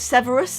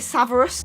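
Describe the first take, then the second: First: The first vowel sounds like eh. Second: The first vowel sounds like ah. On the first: The speaker calls it right. "I always struggle with Severus" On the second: The speaker calls it wrong. "I used to say Saverus"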